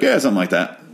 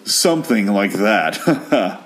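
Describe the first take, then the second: First: It is said casually, playing it off. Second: It is said knowingly, with a chuckle.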